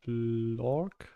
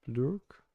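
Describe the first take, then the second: First: Blork drawn out, with an "or" vowel; unsure pronunciation. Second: Blurk with an "ur" vowel; second pronunciation attempt. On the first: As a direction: sound out Blork slowly, vowel as in "fork". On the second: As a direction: try Blurk, vowel as in "lurk". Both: Shown as a demonstration. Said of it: "don't know how to pronounce the name".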